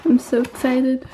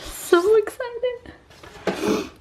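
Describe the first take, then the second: First: Said in the usual way. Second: Very slow, high squealed so excited; drawn-out squeal. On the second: Real, not acted. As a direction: stretch it into a long squeal.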